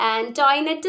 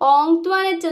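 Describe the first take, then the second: First: The name starts with a plain 'an' sound. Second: The name starts with a nasal 'ong' sound. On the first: The speaker calls it wrong. "ഈ പേര് ആന്റോയിനെറ്റ് എന്നല്ല പ്രൊനൗൺസ് ചെയ്യേണ്ടത്" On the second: The speaker calls it right. "ഓങ്ക്ട്വനറ്റ് എന്നാണ്"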